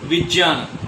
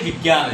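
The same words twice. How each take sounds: First: The middle conjunct sounds like 'jn'. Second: The middle conjunct sounds like 'gy'. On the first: This is how the word really is. The speaker calls it right. "लेकिन होता क्या है? विज्ञान" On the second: This is the popular everyday reading. The speaker calls it wrong. "हम इसको पढ़ते हैं विज्ञान"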